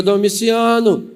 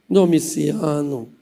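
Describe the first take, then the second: First: Aunt's drawn-out summons to her husband; calling out. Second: Low, slow wheedling of a husband; sweet coaxing. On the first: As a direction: call the name out firmly, stretched slow. Aunt first calls bad-tempered uncle. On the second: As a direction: draw the name out low and gently. Aunt softly wheedles her husband. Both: Acted.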